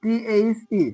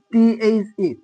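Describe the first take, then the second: No difference in how they are said.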